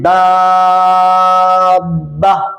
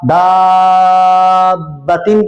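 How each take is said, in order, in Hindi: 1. शब्द अपने अंत के बिना, छोटा होकर रुक जाता है। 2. शब्द अपने पूरे अंत के साथ पढ़ा जाता है। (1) "या पढ़ें दाबा" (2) "मिलाकर पढ़ा"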